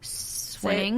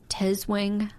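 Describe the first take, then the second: First: The name begins with an S sound. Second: The name begins with a T sound. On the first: The speaker calls it right. "it's a silent T" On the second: The speaker calls it wrong. "I'm going to butcher this"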